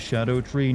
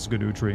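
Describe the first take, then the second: First: The name begins with a 'shad' sound. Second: The name begins with a 'skid' sound. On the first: "it's probably pronounced the Shadow Tree" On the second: "but I like saying Skidoo Tree"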